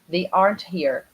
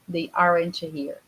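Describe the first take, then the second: First: It has a native English pronunciation of aren't. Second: It has a Brazilian-accented pronunciation of aren't. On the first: The speaker calls it right. "We pronounce it as aren't" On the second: The speaker calls it wrong. "aren't is a Brazilian pronunciation"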